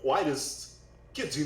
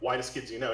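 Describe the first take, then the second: First: The phrase has an odd, choppy cadence. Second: The phrase flows in an even, ordinary rhythm. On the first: The speaker calls it right. "He goes like" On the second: The speaker calls it wrong. "he wouldn't say like"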